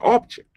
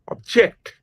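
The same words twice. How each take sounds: First: The stress is on the first syllable. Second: The stress is on the second syllable. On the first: It is a noun, a thing. "the stress from the first syllable" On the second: It is a verb meaning to resist. "with a shift in the stress from the first syllable to the second syllable"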